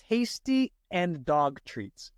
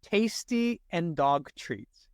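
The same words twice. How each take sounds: First: Slow read-aloud test. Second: Slow, deliberate test reading; a careful, unhurried read-aloud; read slowly. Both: Shown as a demonstration. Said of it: "read it out loud and slowly".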